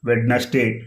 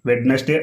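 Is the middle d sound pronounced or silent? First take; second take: pronounced; pronounced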